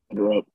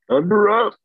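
First: It is said with low energy. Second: It is said with more energy.

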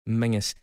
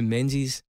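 First: It is said with an ng sound, like 'mingus'. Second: It is said with a z sound, like 'menzeez'. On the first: This is how Scottish people say it. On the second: This is how it is said outside Scotland.

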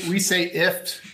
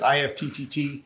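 First: The name is said as one short syllable. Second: The name is spelled out letter by letter. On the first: This is how the company itself says the name. "We say IFT. So kind of like a gift without the G" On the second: This is how some other people say the name. "somebody pronounces it differently or says IFTTT"

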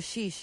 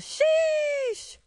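First: It is said flatly, without emphasis. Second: It is said with strong emphasis.

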